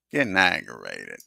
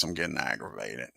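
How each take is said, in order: First: Aggravated repeat. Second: Said in the usual way. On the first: Real, not acted. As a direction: repeat it with real irritation.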